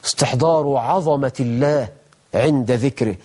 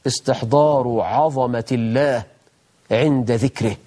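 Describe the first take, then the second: No difference in how they are said.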